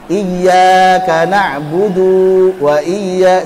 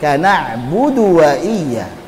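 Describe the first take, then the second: First: The final vowel before the next word is drawn out. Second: The final vowel is short, flowing straight on. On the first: The speaker calls it wrong. "huruf terakhirnya jadi panjang. ... sering kan?" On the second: The speaker calls it right.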